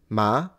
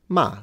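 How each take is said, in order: First: The pitch rises from middle to high. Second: The pitch falls sharply from high to low.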